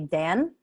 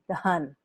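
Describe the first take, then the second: First: The vowel sounds like the one in cat. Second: The vowel sounds like the one in cup. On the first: The speaker calls it wrong. "the tendency is one to say Dan" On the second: The speaker calls it right. "but with that H, it's done"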